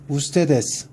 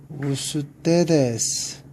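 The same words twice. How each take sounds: First: 우스테데스 said in one quick sweep; 우스테데스 at natural speed; quick read-through. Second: 우스테데스 stretched slowly, falling at the end; 우스테데스 slow and clear; slow model reading. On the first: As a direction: finish the list with a fast 우스테데스. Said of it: "우선 한번 읽어볼까요". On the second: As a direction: break 우스테데스 into its syllables. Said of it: "한번 읽어볼까요". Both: Shown as a demonstration.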